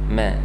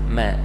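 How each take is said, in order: The two takes are said the same way.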